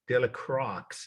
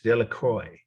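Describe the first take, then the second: First: It is said with an Indiana Midwestern accent. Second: It is said with a French accent. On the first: "is how they say it in Indiana" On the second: "is how my French speaking friends pronounce it"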